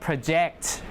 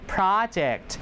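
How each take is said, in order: First: The stress is on the second syllable. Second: The stress is on the first syllable. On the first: It is a verb. "If it's a verb, project" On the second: It is a noun. "if it's a noun, project"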